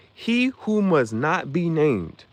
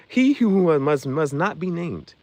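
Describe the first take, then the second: First: Very slow, ominous villain line. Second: Slow, ominous movie villain line. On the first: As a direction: stretch each word out darkly. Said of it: "He started talking like that". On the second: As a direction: draw it out darkly. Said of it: "when they look up Voldemort". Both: Retold or imitated.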